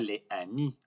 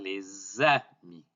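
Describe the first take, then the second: First: The words are said separately, with no z linking. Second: A z sound links les to amis. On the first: The speaker calls it wrong. "On ne dit pas les amis" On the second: The speaker calls it right. "on va dire les amis"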